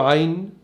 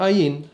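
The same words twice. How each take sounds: First: عين with the Arabic throat consonant; squeezed-throat first sound in عين. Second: عين said as ayin with a glottal start; عين opening like a hamza. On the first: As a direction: open عين on a pharyngeal ayn sound. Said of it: "بيقولوا عين زي العربي". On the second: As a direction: drop the throat sound in عين, starting on the vowel. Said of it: "حرف سايلنت زي الهمزة". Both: Shown as a demonstration.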